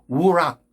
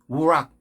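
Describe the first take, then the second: No difference in how they are said.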